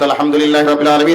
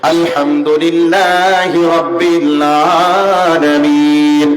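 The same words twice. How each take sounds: First: The phrase is recited quickly and rushed. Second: The phrase is recited slowly and evenly.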